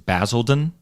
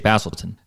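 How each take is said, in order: First: The middle consonant is a clear D sound. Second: The middle consonant sounds like a T. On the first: The speaker calls it right. "I know that the word is Basildon" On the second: The speaker calls it wrong. "I say Basildon. That's what I normally say"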